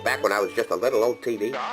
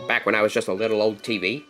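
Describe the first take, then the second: First: The voice is altered by a voice changer. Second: The voice sounds natural, without any effect.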